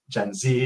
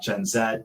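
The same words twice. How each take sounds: First: The letter Z is said the American way. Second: The letter Z is said the British way. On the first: This is how the speaker will say it. "I'm from Detroit in America, so forgive my pronunciation" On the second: This is how the speaker will not say it. "not Gen Z"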